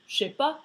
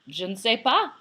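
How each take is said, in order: First: The ne is dropped and words run together. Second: Every word is said fully, including ne. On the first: This is the casual everyday form. The speaker calls it right. "a real French person would say" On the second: This is the careful textbook form. The speaker calls it wrong. "But no French person says it like that"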